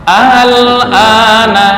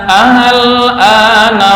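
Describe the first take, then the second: The two takes are said the same way.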